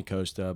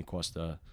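First: "Costa" with a plain long O, KOH-stuh; everyday pronunciation. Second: "Costa" with a w-glide, KWOH-stuh; Greek family pronunciation. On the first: How people generally call him, "Costa" said KOH-stuh. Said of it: "They call me Costa". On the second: Greek family's name for him, "Costa" said KWOH-stuh. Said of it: "I'm Greek. They call me Costa". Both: Shown as a demonstration.

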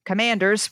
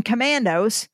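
First: Fix the slip with "Commanders"; corrected team name. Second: "Commandos" said by mistake instead of Commanders; wrong team name. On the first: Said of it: "the Washington Commandos". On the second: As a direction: slip and say "Commandos" with a hard mando. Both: Real, not acted.

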